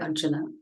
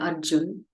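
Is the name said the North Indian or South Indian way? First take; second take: South Indian; North Indian. First: It is said South Indian style, with final vowel. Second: It is said North Indian style, without final vowel. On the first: "We'll say" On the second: "You'll say"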